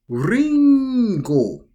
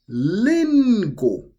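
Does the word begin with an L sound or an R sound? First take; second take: R sound; L sound. First: The word begins with an R-like sound. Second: The word begins with an L sound. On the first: "In Japanese, we could say ringo" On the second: "the R would actually turn into an L. And we would say it as lingo"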